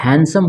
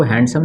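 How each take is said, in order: First: हैंडसम as "han-sum", no D; D dropped from हैंडसम; silent D. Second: हैंडसम with the D sounded; mispronounced with D. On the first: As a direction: say हैंडसम correctly, leaving the D out. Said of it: "इसमें डी silent हो जाता है". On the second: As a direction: say the wrong हैंडसम, pronouncing its D as "hand-sum". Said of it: "उसको हैंडसम नहीं बल्कि हैंडसम". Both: Shown as a demonstration.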